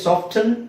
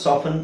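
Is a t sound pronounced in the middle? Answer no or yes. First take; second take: yes; no. First: A t sound follows the f. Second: The f goes straight into the n. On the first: The speaker calls it wrong. "ಸಾಫ್ಟನ್ ಅಂತ ಹೇಳಲ್ಲ" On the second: The speaker calls it right. "ಸಾಫನ್ ಅಂತ common ಆಗಿ ಹೇಳ್ತಾರೆ"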